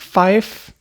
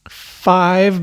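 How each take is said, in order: First: The word ends with an 'f' sound. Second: The word ends with a 'v' sound. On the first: The radio pronunciation, clearer over the air. "Five becomes fife" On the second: The everyday pronunciation. "also V's, they don't transmit well"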